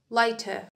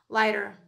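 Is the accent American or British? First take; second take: British; American. First: It is said in a British accent. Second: It is said in an American accent. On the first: "In British dialect, we say lighter" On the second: "In American dialect, we say lighter"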